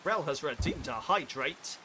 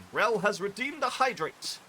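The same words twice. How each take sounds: First: Odd announcement voice. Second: Higher and louder, breaking-news headline; hammed-up news anchor. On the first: Pretend. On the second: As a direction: announce it like the top story of the night. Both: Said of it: "I don't know why I said it like that".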